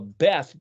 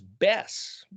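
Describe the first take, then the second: First: The word ends with a th sound. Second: The word ends with an s sound. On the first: "Beth, B E T H" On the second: "they'll pronounce it or they'll write it here as Bess"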